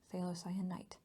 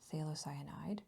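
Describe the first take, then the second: First: The word ends with an 'ite' sound. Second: The word ends with an 'ide' sound. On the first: "it is not phthalocyanite" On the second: "it is not phthalocyanide"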